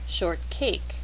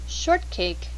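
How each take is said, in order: First: The stress is on the second part, cake. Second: The stress is on the first part, short. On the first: It means any cake that is not tall. "a shortcake could be any type of cake that is not tall" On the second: It names a specific type of cake. "A shortcake is a specific type of cake"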